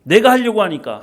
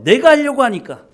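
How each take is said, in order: First: Said in the usual way. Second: 내가 punched higher and louder; 내가 emphatic; stress on 내가. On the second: Shown as a demonstration. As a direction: hammer 내가. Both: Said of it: "repeated point".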